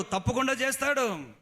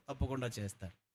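First: High, loud certain cry; loud high sermon cry; loud affirmation. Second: Soft, dropped-down echo; hushed affirmation. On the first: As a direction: declare it with full force. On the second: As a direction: let it fall to a quiet certainty. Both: Acted. Repeated promise, loud then hushed.

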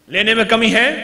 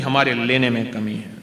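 First: "लेने में कमी है" rising at the end as a question. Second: Said in the usual way. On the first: Real, not acted. Preacher asks listeners if the lack is in receiving, questioning "लेने में कमी है". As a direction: check they got it, lifting "है" upward.

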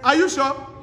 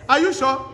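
No difference in how they are said.

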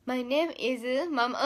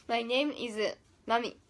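First: Slow English self-intro, name slipping to "ママ" instead of マミ; slow slip-up. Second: Slow English self-intro, "My name is マミ" with マミ ending on a clear "mi"; slow careful English. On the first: 英語を練習中に名前を言い間違える、ゆっくりした言い間違い. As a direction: say "My name is ママ" slowly, the name coming out as "ma-ma". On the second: 英語を練習する生徒が先生に、ゆっくり丁寧な英語の自己紹介. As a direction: say "My name is マミ" slowly, "name" stressed, マミ said as "ma-mi". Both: Shown as a demonstration. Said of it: "あ、ちょっと違うぞ".

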